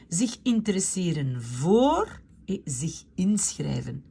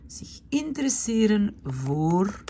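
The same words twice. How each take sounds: First: Zich interesseren voor read out in a whisper; whispered to herself while reading. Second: Zich interesseren voor said aloud, slow and clear; clear slow repeat. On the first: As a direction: murmur it half to yourself. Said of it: "reads the new verbs half to herself". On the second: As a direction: say it again clearly for the class. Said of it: "repeats the verb clearly". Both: Shown as a demonstration.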